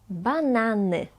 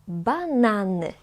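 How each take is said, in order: Both takes have the same delivery.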